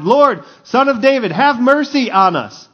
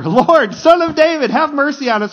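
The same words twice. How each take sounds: First: Raised, higher-pitched cry for mercy; shouted plea. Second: High, loud desperate cry for mercy; louder shouted plea. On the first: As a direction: call out to be heard over a crowd. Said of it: "they shouted". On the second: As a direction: cry out harder, pitched right up. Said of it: "they shouted all the louder". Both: Acted.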